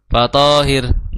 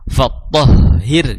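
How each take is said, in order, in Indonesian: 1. Vokal panjang, lalu h tunggal yang ringan. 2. Vokal pendek, lalu h yang bertasydid dan ditekan. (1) "malah jadi tonya panjang" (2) "ada tasdid di huruf ha"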